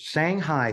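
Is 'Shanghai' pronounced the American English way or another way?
American English. Shanghai is said with an American English pronunciation.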